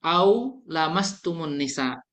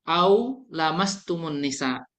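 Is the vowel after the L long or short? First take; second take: short; short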